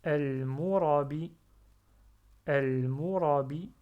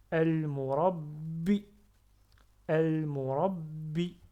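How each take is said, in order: First: "al-murabi" fort et lent, b simple; sans shadda. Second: "al-murabbi" fort et lent, b redoublé; b retenu. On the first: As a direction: laisser sortir le b de "al-murabi" sans le retenir. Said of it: "Si j'enlève shadda". (« al-murabi » posé, sans redoubler le b) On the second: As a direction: ne pas laisser sortir facilement le b de "al-murabbi". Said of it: "je retiens le ba". (« al-murabbi » avec shadda, b bloqué puis relâché) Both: Shown as a demonstration.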